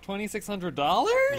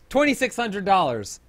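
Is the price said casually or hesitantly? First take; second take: hesitantly; casually. First: The price is said in a hesitant, apologetic way. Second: The price is said in a casual, offhand way. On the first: The price is regrettably high. "I just wanted him to be like" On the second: The price is no big deal. "he so casually goes"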